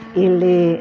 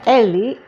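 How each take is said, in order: First: The first vowel is an i sound. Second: The first vowel is an e sound. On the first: "E itu jadi I" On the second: "Jadi bilanya Eli"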